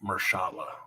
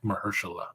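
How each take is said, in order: First: The name is said with three syllables. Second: The name is said with four syllables. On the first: The speaker calls it wrong. "not Mershala" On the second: The speaker calls it right. "Mahershala Ali"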